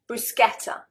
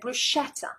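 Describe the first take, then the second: First: The middle consonant is a 'k' sound. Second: The middle consonant is a 'sh' sound. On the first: The speaker calls it right. "the C and the H, is going to be a K sound, so sk" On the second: The speaker calls it wrong. "The British ... will pronounce it bruschetta"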